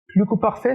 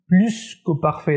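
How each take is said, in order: First: The s of plus is silent. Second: The s of plus is sounded. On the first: The speaker calls it wrong. "ce n'est pas la bonne euh, prononciation" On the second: The speaker calls it right. "on prononce la lettre S"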